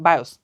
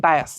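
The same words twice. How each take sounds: First: বায়োস, ending in an "-os" sound; variant pronunciation. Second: বায়াস, ending in an "-as" sound; variant pronunciation. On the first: Teacher offering students the other name, বায়োস with "-os" ending. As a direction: say বায়োস with a round o in the last syllable. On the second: Teacher giving students one accepted name, বায়াস with "-as" ending. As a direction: say বায়াস with an open a in the last syllable. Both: Shown as a demonstration. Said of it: "বায়োস যাই বলো না কেন".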